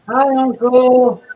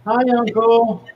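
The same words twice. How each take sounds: First: Much higher, louder and slow; exaggerated nephew voice. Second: Put-on lightly higher, louder kid voice; a captured nephew calling out to his uncle; nephew's voice. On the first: Nephew greeting his uncle, hammed-up and slow. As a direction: stretch it out like a pitiful kid. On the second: Nephew greeting his uncle in a small raised voice.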